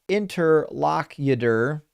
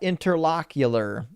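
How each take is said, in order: First: The word ends with a 'cutor' sound. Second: The word ends with a 'cular' sound. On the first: The speaker calls it right. "Interlocutor is pronounced interlocutor" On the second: The speaker calls it wrong. "not interlocular"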